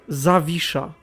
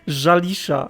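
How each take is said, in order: First: The name is said in a native Polish way. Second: The name is said in an anglicized way. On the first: The speaker calls it right. "It's not that hard" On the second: The speaker calls it wrong. "I think he pronounced it"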